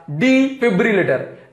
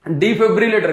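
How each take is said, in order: First: defibrillator spelled out slowly, syllable by syllable; slow, clear repetition of defibrillator; slow repeat. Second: Said in the usual way. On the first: Shown as a demonstration. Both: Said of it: "क्या?".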